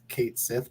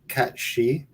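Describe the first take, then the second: First: It sounds like 'Kate Sith', read from spelling. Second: It sounds like 'Cat She', with a 'sh' sound. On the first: The speaker calls it wrong. "It looks like it's spelt Kate Sith" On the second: The speaker calls it right. "but it's actually pronounced"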